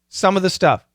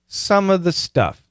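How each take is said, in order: First: The phrase is said at normal conversational speed. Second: The phrase is said slowly and carefully.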